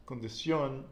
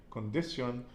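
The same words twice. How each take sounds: First: "condición" stressed on the last syllable "ción"; final-syllable stress. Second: "condición" wrongly stressed on "di"; wrong penultimate stress. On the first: Teacher correcting for student, final stress on "condición". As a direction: land on the accented "ó" of "condición". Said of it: "accent over the O". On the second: Teacher showing mistaken nose-rule reading, stress on "di" of "condición". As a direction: punch "di" in "condición", let "ción" fall. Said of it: "you'd think it would be condición". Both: Shown as a demonstration.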